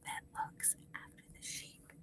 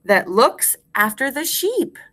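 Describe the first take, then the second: First: Barely audible whisper; whispered echo. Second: Full-voiced, rising at the end; measured rhyme recitation. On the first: Teacher leaves room for class to repeat, whispering faintly. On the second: Teacher gives class a line to repeat, measured and clear. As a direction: space it out for repeating. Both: Shown as a demonstration.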